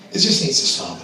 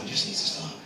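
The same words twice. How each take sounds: First: Said in the usual way. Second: Much softer, breathed under the voice; whispered aside. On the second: Real, not acted. Comedian repeating himself to audience, whispered aside. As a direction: drop to a whisper as if to yourself.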